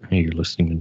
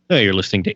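First: The voice is soft, slow and calm. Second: The voice is loud, pushy and overdone. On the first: It imitates a classical music station announcer. "it was very calm" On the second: It imitates a university station announcer. "it was very obnoxious"

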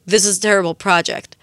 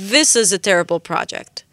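First: The stress is on the word project. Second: The stress is on the word this. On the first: "לעומת project" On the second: "אם אני שם את הדגש על this, כי זה סתם אפליקציה של עברית שמתחילים חזק ויורדים למטה"

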